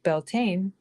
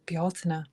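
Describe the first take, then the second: First: The name is given its common, anglicized pronunciation. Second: The name is given its original Irish pronunciation. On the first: This is the form most people use. "which everyone says is Beltane" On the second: This is the authentic form few recognize. "the real pronunciation of Beltane, which is more like Bealtaine"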